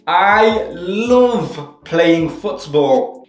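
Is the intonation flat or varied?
varied. The word love is stretched with raised pitch. The speaker calls it right.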